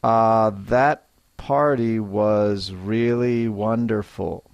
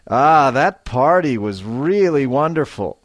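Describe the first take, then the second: First: Said in the usual way. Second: Delighted. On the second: Shown as a demonstration. Teacher showing learners, delighted. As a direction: gush about the party. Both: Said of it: "a little more feeling and life".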